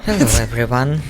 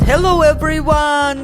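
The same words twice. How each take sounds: First: It sounds calmer and less excited. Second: It sounds overly cheerful and excited.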